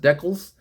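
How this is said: The word is said the Canadian way. "as uh, Crusty old crow says, decals. The guys in Canada says say decals"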